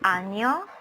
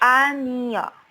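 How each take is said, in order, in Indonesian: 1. Kata ini diucapkan dengan cepat. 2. Kata ini diucapkan dengan kecepatan normal.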